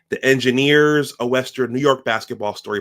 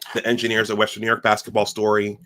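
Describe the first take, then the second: First: It is said slowly. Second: It is said fast.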